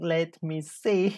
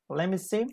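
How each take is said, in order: First: Let and me are said as separate words. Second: Let and me blend into one word, lemme. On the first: "Instead of saying" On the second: "you can say"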